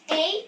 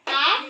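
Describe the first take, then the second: First: It is said as the letter's name. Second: It is said as a bare vowel sound. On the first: "Kapag ang tanong ko ay ano-ano ang limang patinig, ang sagot ay" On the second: "Ano ang tunog ng limang patinig?"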